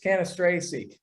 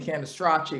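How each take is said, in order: First: The name is said with an American pronunciation. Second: The name is said with an Italian pronunciation. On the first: "that's the American pronunciation" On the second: "that's the Italian way of saying it"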